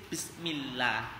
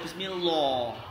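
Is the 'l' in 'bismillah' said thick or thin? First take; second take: thin; thick. First: The l is thin, with lips drawn back. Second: The l is thick, with lips pushed forward. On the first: The speaker calls it right. "dibaca tipis" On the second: The speaker calls it wrong. "nggak boleh mencucu atau ditebalkan"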